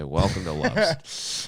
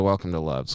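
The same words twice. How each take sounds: First: Slow, drawn-out company welcome; slow scripted greeting. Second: Said in the usual way. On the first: Shown as a demonstration. Clerk greeting a dying customer, slow and scripted. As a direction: recite the store greeting slowly. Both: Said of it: "'cause I gotta say".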